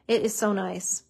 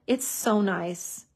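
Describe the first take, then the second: First: "It is so nice" with weight on "is"; emphatic repeat. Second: Slow, savoring "It's so nice"; drawn-out admiring. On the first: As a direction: lean on "is" to insist. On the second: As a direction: linger lovingly on each word. Crafter admires dried glue. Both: Real, not acted.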